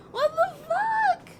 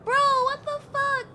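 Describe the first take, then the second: First: Slower, higher, stretched disbelief; stunned slow yell of disbelief; drawn-out outraged yell. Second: Outraged yell. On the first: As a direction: drag it out in shock. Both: Real, not acted. Outraged at game twist.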